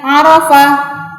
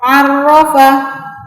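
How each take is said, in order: First: The r sound is short and single. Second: The r sound is held doubled. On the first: The speaker calls it wrong. "sudah berbeda" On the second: The speaker calls it right. "harus dibaca masuk ke huruf ro"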